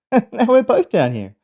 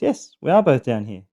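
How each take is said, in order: First: High, loud mock exasperation; exasperated complaint. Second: "are" stressed, far less high than a protest; confirming, stress on ARE. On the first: Trapped man to friend stuck beside him, exasperated complaint. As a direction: complain in a raised, put-on voice. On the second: Acted. Friend answering the trapped man, confirming with stress on "are". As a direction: concede it firmly, leaning on "are".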